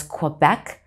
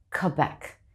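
First: "Quebec" with a kw glide, "kwuh-bec"; American pronunciation. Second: "Quebec" with a plain k and no w, like "kebec"; Quebecer pronunciation. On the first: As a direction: put a w after the k in "Quebec". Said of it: "Americans may pronounce it as Quebec". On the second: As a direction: drop the w: "Quebec" starts with a bare k. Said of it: "If you talk to someone from Quebec". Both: Shown as a demonstration.

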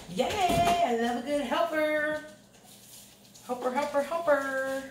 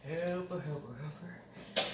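First: High chanted helper helper; sung, singsong cheer. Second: Soft, slow trailing chant; fading singsong. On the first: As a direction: chant it happily, higher up. Cheering daughter helping with dinner. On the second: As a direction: let the chant fade out slowly and softly. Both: Real, not acted.

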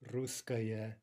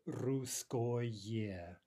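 First: Said in the usual way. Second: "русское" drawn out with full o and clear ye; over-articulate the ending of "русское" as ko-ye; spelling pronunciation. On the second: Shown as a demonstration. Teacher showing neuter ending, "русское" with unreduced ko-ye.

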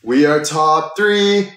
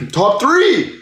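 First: Slow excited announcement. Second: Excited shout that cracks high. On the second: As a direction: voice breaks on the excited yell. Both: Real, not acted. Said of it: "Voice crack".

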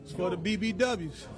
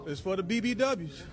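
The two takes are said the same way.

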